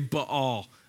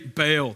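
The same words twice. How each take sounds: First: It is pronounced the way Hebrew speakers would say it. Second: It is pronounced with a Southern US accent.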